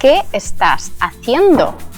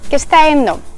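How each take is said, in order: First: Each word is said separately and fully. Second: The words are merged and sounds are dropped. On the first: "Вместо" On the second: "ты услышишь ... Слова сливаются"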